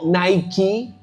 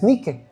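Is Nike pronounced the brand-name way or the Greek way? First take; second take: brand-name; Greek. First: It is pronounced the common brand-name way. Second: It is pronounced the Greek way. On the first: "no como usted lo pronuncia" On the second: "En griego es Nike"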